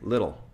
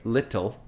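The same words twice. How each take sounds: First: The t is a soft flap, like a quick d. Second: The t is a crisp, fully released t. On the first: The speaker calls it right. "we say little. That's how we speak" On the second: The speaker calls it wrong. "we don't say little"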